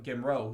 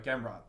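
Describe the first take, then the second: First: The final T sound is dropped. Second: The final T sound is pronounced. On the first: The speaker calls it wrong. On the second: The speaker calls it right.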